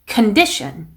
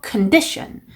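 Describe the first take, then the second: The two takes are said the same way.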